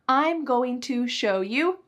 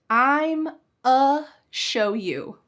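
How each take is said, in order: First: Each word of 'going to' is fully pronounced. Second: 'Going to' shrinks to a single 'a' sound. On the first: "do you think I said it like this?" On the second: "I used an ultra reduction"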